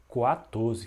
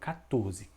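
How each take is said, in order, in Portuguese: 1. Começa com som de 'kw'. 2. Começa com som de 'k' simples. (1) "que nem o número quatro" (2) "Não dá para ouvir o som do U"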